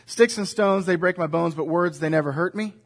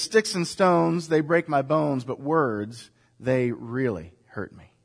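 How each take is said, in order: First: Said in the usual way. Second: Slower and fading softer toward "really hurt me"; a mildly sad correction of the children's saying; somber truth. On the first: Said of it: "that's the children's saying". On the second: Shown as a demonstration. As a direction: let the last words sink quietly. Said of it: "The real truth is".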